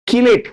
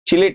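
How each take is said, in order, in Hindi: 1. यह शब्द 'k' ध्वनि से शुरू होता है। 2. यह शब्द 'ch' ध्वनि से शुरू होता है। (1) "चिलेट नहीं, कीलेट" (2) "बहुत लोग चिलेट बोलते हैं, गलत है"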